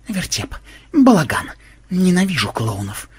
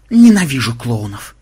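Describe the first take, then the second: First: Grumbling to himself. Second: Loud disgusted outburst; angry bark. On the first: Programmer walks off to the lair, grumbling to himself. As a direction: grumble it half to yourself. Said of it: "бормоча себе под нос". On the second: Programmer declares hatred of clowns, loud angry bark. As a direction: bark it out with loathing. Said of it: "зло рявкнул Ксенобайт". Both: A narrator's reading.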